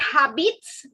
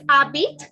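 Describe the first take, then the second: First: The word ends with an audible S sound. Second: The word ends without any S sound. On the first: The speaker calls it wrong. "It is not habits. Please don't pronounce the S" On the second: The speaker calls it right. "It is habit"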